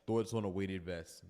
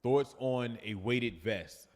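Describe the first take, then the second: First: Said in the usual way. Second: Slow reading. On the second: Shown as a demonstration. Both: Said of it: "reading viewer question aloud".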